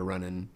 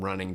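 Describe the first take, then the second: First: Running is said with a dropped Southern ending. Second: Running is said with a full standard ending. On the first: "to running" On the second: "we changed things from running"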